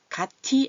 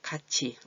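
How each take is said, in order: First: The middle consonant is a plain t sound. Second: The middle consonant is a ch sound. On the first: The speaker calls it wrong. "아니고" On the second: The speaker calls it right. "티읕은 치읓으로"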